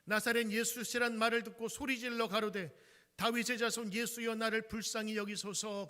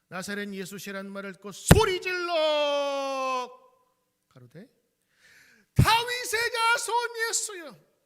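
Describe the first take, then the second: First: It is read calmly and plainly. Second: It is read loudly, like a cry.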